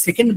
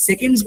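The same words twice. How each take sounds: First: "সেকেন্ড" ending on d, with no s; final S dropped. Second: "সেকেন্ডস" with a clear s at the end; final S sounded. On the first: Teacher shows learners' mistake, plural s missing from "সেকেন্ড". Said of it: "উচ্চারণ করে না". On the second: Teacher contrasts plural with singular, sounding the final s in "সেকেন্ডস". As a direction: finish "সেকেন্ডস" on an audible plural s. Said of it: "এসটাকে একটু জোর দিয়েন". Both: Shown as a demonstration.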